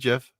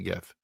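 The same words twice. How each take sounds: First: It begins with a soft J sound. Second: It begins with a hard G sound. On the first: "Put a J there" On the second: "There's a G"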